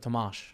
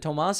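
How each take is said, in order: First: The name ends with an sh sound. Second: The name ends with a plain s sound. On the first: The speaker calls it right. "The S is pronounced like sh" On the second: The speaker calls it wrong. "or am I doing it wrong?"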